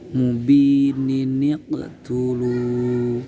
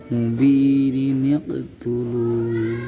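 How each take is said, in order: Both takes have the same delivery.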